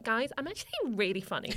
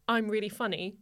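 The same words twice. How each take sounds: First: Mock-boastful sarcastic tone. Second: Said in the usual way. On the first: Teenager complimenting herself as a joke, sarcastic. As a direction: say it as a self-mocking joke. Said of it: "I'd say in a sarcastic tone".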